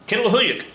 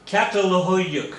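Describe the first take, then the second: First: Catalhoyuk said more quickly and confidently, said kin-la-ho-yuk; a quicker second go at Catalhoyuk after clearing the throat; confident retry of Catalhoyuk; second, better try. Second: Catalhoyuk sounded out slowly and carefully, falling at the end; a first careful attempt at Catalhoyuk, said kat-al-ho-yuk; careful first try. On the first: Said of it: "that almost sounded good". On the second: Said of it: "I'm gonna try to pronounce this". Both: Shown as a demonstration.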